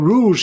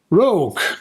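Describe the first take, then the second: First: It sounds like the French word rouge. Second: It sounds like the English word rogue. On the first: The speaker calls it wrong. "if you're saying it, the French word wrong" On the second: The speaker calls it right. "Because she's rogue"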